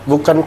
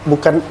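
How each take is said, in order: No difference in how they are said.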